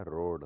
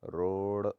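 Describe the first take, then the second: First: Said in the usual way. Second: रोड ending in a flapped ड़. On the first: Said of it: "होता है". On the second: Shown as a demonstration. Teacher shows the error, रोड with flap. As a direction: flick the tongue at the end of रोड. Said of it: "नहीं होता".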